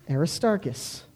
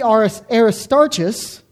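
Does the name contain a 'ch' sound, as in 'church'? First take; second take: no; yes. First: The name is said without a 'ch' sound. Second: The name is said with a 'ch' sound. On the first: The speaker calls it right. "It's Aristarchus" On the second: The speaker calls it wrong. "it can't be Aristarchus, because again, there's no sound like that"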